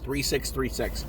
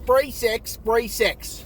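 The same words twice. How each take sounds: First: It is said in a plain, ordinary accent. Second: It is said in a heavy foreign accent.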